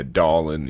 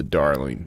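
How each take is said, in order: First: Darling said as "dahlin"; darling as a local "dah-lin"; dropped-R darling. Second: Said in the usual way. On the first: Shown as a demonstration. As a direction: say darling without the R, ending in -in. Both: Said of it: "I don't know about the darling thing".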